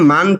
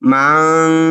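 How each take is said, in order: First: It ends in a plain n sound. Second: It ends in a nasal sound through the nose. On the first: The speaker calls it wrong. "এখানে মান বলা যাবে না" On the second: The speaker calls it right. "নাকের সাথে বাজিয়ে পড়তে হবে"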